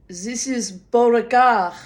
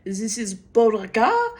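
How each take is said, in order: First: "Beauregard" with French vowels and dropped r; French pronunciation. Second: "Beauregard" echoed French-style with a questioning rise; "Beauregard?" French-sounding, rising in doubt; puzzled echo. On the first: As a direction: say "Beauregard" as the French vet would. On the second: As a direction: repeat "Beauregard" back, confused. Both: Retold or imitated. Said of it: "correct way to pronounce his name in French".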